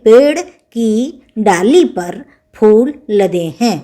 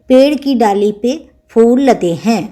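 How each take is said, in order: First: The word before phool is the full form par. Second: The word before phool is the short form pe. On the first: The speaker calls it right. "तो सही बोलेंगे" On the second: The speaker calls it wrong. "क्योंकि हमने ऐसे बोला"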